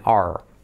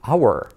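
First: "our" reduced to one syllable, "ar"; short open "ar"; native pronunciation. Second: "our" as "OW-er", like "hour"; careful taught "our"; schoolbook pronunciation. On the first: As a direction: say "our" just like "are". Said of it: "ellos siempre dicen are". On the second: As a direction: give "our" its full two syllables. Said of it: "como hora". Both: Shown as a demonstration.

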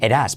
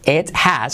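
First: "it has" as "ed-as", tapped T, no H; linked it has. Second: Said in the usual way. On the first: Shown as a demonstration. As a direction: soften T to an R and skip the H in "it has". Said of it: "se convierte en una R suave". ("it has" como "eras", sin H) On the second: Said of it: "It has se convierte en".

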